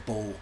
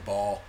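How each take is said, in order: First: "bull" with a British vowel; British pronunciation. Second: Said in the usual way. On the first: Shown as a demonstration. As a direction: say "bull" as a British child would say ball. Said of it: "So I, I had an accent". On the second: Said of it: "I had an accent".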